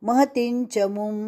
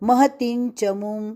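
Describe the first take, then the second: No difference in how they are said.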